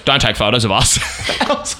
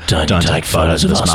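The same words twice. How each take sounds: First: It is said in a plain, clear voice. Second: It is said in a low, muttered voice. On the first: The speaker calls it wrong. "you're not giving his voice enough credit" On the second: The speaker calls it right. "in the most like muttered tone"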